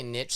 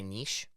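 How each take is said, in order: First: "niche" said as NITCH, rhyming with pitch; short i, hard tch in "niche"; anglicized pronunciation. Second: "niche" said as NEESH, rhyming with leash; long ee, soft sh in "niche"; French-style pronunciation. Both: Shown as a demonstration. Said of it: "some people say niche".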